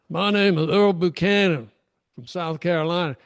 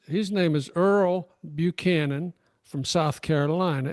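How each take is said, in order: First: It is said in a put-on Southern accent. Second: It is said in the speaker's plain accent.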